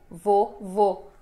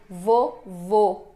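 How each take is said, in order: Both takes have the same delivery.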